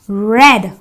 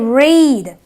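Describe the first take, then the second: First: The vowel is a short e, like bed. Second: The vowel is a long e, like reed. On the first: It is the past tense. "The E A gives me the S sound, so I say red" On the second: It is the present tense. "It is the long E. So I say read"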